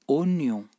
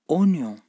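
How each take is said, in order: The two takes are said the same way.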